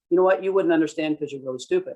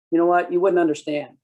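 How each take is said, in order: First: Mock condescending insult. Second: Louder, condescending brush-off; mock dismissive. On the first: What the citizen hears from the cop, sneering. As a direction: make them feel stupid. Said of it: "that's what they're hearing". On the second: Cop brushing off a citizen, condescending. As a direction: dismiss them from above. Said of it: "what you're saying there is".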